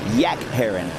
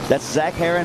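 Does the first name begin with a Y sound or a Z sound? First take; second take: Y sound; Z sound. First: The first name begins with a Y sound. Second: The first name begins with a Z sound.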